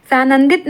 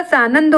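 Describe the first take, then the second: First: सानंदित ending in -it; wrong form. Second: Said in the usual way. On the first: Shown as a demonstration. Teacher rejects a misspelling, सानंदित ending in -it. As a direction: add -it to end सानंदित. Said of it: "सानंदित नहीं होगा". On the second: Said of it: "सानंद होता है".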